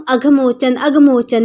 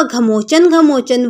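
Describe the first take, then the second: First: "अघमोचन" with its opening short "a" intact; correct holy name. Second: "घमोचन" with the opening "a" of अघमोचन dropped; misremembered name. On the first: Mahatma teaches a villager the name, "अघमोचन" said with its first vowel. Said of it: "अब भूल गया और वह घमोचन". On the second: Villager forgets the name he was given, "घमोचन" missing its first vowel. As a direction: start straight on "gha" in "घमोचन". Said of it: "गांव जाते जाते अब भूल गया". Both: A narrator's reading.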